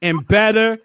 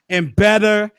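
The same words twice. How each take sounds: The two takes are said the same way.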